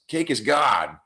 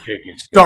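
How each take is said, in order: First: It is said in a normal voice. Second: It is said in a deep voice.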